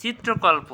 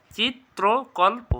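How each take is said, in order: First: Said in the usual way. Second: "চিত্রকল্প" high and slow, চিত্-ত্রো-কল্পো; syllable-by-syllable pronunciation. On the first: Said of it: "কী হবে". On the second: Shown as a demonstration. Teacher modelling for students, "চিত্রকল্প" slow and split. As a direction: pause between the pieces of "চিত্রকল্প". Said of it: "এটা কী হবে".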